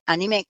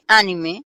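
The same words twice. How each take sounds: First: The stress is on the last syllable. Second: The stress is on the first syllable. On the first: The word comes from the French term. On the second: The word comes from the English term.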